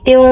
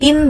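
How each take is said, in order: First: The final n is hidden with a nasal hum. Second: The final n sound is pronounced clearly. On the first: The speaker calls it right. "tapi til" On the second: The speaker calls it wrong. "bukan tin"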